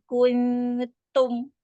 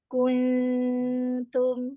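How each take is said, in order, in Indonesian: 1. Bunyi t dipukul terlalu keras. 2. Bunyi t itu ringan dan lembut.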